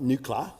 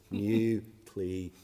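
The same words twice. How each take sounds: First: The word is said in a different, distorted way. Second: The word is said with three syllables. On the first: The speaker calls it wrong. "Not nuclear. I don't know what the hell that is" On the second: The speaker calls it right. "Three syllables"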